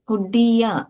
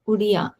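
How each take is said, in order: First: The middle d sound is held long. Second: The middle d sound is short. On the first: The speaker calls it right. "Uddiya, not udiya" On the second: The speaker calls it wrong. "not udiya"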